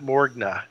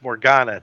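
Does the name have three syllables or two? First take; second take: two; three. First: The name has no extra vowel, two syllables. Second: The name has an extra vowel, three syllables. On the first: The speaker calls it right. "not Morgna" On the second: The speaker calls it wrong. "because I was adding an extra vowel in there"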